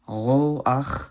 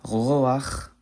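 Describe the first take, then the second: First: The final consonant is a harsh guttural ch. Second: The same.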